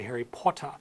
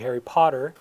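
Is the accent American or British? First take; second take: British; American. First: It is said in a British accent. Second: It is said in an American accent.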